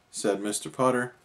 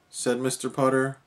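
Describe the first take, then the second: No difference in how they are said.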